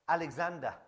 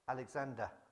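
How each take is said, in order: First: The name is said louder. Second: The name is said quietly.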